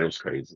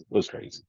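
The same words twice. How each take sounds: First: Said in the usual way. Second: It was crazy breathed out as a whisper; whispered aside. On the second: Real, not acted. DJ recalls all the fan gifts, whispering It was crazy. Repeats the phrase twice.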